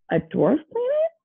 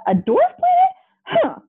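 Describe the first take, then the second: First: High, rising disbelieving question; incredulous, pitched up without much volume; mild indignant shout. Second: Very high, squealed outrage; hammed-up high-pitched protest; indignant yell. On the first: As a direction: echo it back in mild outrage. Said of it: "Pluto shouted". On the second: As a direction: yelp it in disbelief. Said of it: "he yelled". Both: A narrator's reading.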